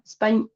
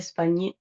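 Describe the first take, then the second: First: The word ends with no vowel after the consonant. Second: The word ends with a short added vowel sound. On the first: "la E no se pronuncia" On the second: "Si quieren tirarle ese cachito de E"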